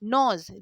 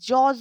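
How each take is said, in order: First: The word begins with an n sound. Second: The word begins with a j sound. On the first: The speaker calls it right. "জি এর উচ্চারণটা নেই" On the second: The speaker calls it wrong. "জজ নয়"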